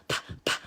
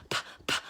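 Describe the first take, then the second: Both takes have the same delivery.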